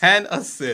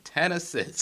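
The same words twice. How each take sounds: First: It is said loudly and forcefully from the chest. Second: It is said in a plain, normal voice.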